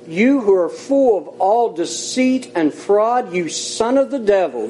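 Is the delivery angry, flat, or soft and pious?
angry. It is said forcefully, with strong emotion. The speaker is rebuking someone in earnest. The speaker calls it right. "I read it the way I think Paul said it"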